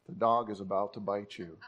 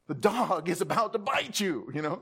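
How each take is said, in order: First: It is said in a flat, calm voice. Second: It is said in a loud, urgent voice. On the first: The speaker calls it wrong. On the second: The speaker calls it right.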